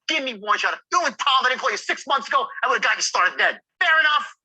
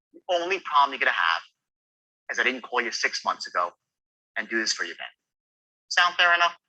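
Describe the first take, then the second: First: Wrong tonality, cocky; arrogant wrong tone. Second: Right tonality, caring; sincere regret tone. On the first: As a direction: push it like a know-it-all. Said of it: "What an ass". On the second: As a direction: sound sorry you didn't call sooner. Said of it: "Which is better?". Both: Shown as a demonstration.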